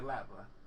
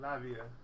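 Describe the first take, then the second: First: The T sound is pronounced in the word. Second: The T sound is left out of the word. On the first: "I would say Latva" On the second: "maybe the T silent"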